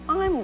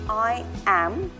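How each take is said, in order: First: It is contracted into a single syllable. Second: It is said as two full, separate words. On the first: The speaker calls it right. "it's I'm going to talk about" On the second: The speaker calls it wrong. "It's not I am"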